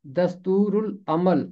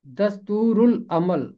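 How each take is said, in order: First: दस्तूरुल अमल said in the ordinary lesson voice with the ल kept; दस्तूरुल अमल said once more in normal voice; plain restatement. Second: दस्तूरुल अमल repeated carefully, the ल before अमल clearly voiced; repeated model. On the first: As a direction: state दस्तूरुल अमल again as a simple recap. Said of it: "इसका तलफ़ुज़ है". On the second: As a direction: say दस्तूरुल अमल again for the class, the ल sounded. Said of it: "लाम की आवाज़ खामोश नहीं रहेगी". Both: Shown as a demonstration.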